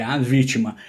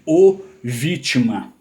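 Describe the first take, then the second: First: "a vítima" with weight on A; stress on the article. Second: "o vítima" with a drawn-out, punched O; wrong-gender "o" held up for show in "o vítima"; stress on the article. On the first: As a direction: set the article "a" firmly before "vítima". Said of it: "É um substantivo sobrecomum". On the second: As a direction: lean hard on "o" before "vítima", slowly. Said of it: "ninguém fala". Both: Shown as a demonstration.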